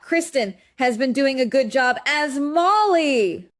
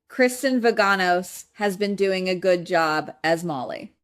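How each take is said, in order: First: It is said louder than before. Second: It is said at normal volume.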